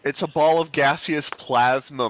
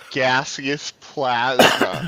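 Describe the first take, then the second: First: Said in the usual way. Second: Very slow, every syllable spelled out; over enunciating. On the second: Shown as a demonstration. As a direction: say Gaseous plasma slowly and carefully. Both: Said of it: "Let me say it slowly".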